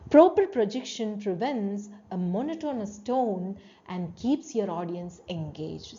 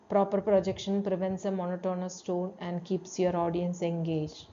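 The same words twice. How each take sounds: First: It is said with varied pitch and energy. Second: It is said in a flat, monotonous voice.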